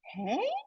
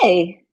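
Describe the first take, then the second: First: It sounds interested. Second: It sounds like something was already done. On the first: The speaker wants to hear more. "Hey, showing interest" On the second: The speaker has already done it. "Hey, already did"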